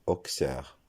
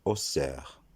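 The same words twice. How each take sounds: First: "Auxerre" misread as ok-sère; wrong ok-sère reading of "Auxerre". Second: "Auxerre" said o-sère, no k sound. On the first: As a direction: say "Auxerre" with a k sound before the s. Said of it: "la prononciation ne sera pas". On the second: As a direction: say "Auxerre" with only an s for the x. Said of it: "ce nom se prononcera". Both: Shown as a demonstration.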